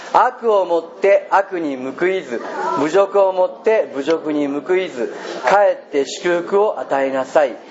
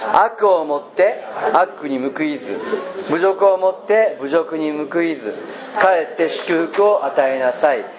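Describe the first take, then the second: No difference in how they are said.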